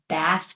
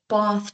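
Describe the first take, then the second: First: The word has an American English vowel. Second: The word has a South African English vowel. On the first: This is how people elsewhere say it. "we don't say it's bath time" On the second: This is how local speakers say it. "We would say it's bath time"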